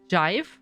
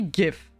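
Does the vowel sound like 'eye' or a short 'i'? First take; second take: eye; short i. First: The vowel is a long 'eye' sound. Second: The vowel is a short 'i' sound. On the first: "if you want to pronounce it English that it would be jive" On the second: "but in German would be GIF"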